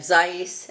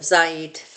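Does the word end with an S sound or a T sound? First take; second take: S sound; T sound. First: The word ends with an S sound. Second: The word ends with a T sound. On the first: "they have zayis" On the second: This is the typical Israeli pronunciation. "instead of zayit"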